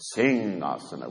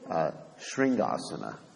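First: The word starts with a plain 's' sound. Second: The word starts with a 'shr' sound. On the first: The speaker calls it right. "It's singhasana, which means a lion throne" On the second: The speaker calls it wrong. "Most devotees pronounce it improperly. They say shringasana"

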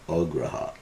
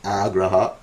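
First: The first vowel sounds like O. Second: The first vowel sounds like A. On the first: Failure to accept. "otherwise it's pronounced O, without the line" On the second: Eagerness to accept. "When you got the line above the A, it's pronounced A"

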